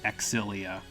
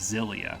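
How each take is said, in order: First: The name is said the Japanese way. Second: The name starts with a Z sound. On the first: This is how the Japanese version says it. "the Japanese version pronounces it Exilia" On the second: This is how an English speaker would say it. "like an English speaker would pronounce it"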